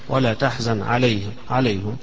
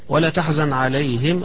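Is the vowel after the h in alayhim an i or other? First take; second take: other; i. First: The vowel after the h is not i. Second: The vowel after the h is an i. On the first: This is a minority reading. "ويقرأها حمزة ويقرأها يعقوب" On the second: This is the majority reading. "هذه قراءة الجمهور عليهم بالكسر فيها"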